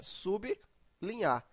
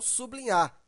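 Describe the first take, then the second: First: The b closes the first syllable, sub. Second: The b opens the second syllable, bli. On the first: The speaker calls it right. "a separação ficaria sublinhar. Desse jeito" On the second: The speaker calls it wrong. "e não sublinhar"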